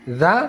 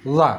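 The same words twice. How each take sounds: First: "Za" with tongue tip out, root level; light voiced TH in "Za"; thin za. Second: "Za" with tongue tip out, root lifted; dark, heavy voiced TH in "Za"; thick za. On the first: Teacher repeating two letters, "Za" said thin. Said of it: "Itu tipis". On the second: Teacher repeating two letters, "Za" said thick. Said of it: "Kalau ingin tebal". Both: Shown as a demonstration.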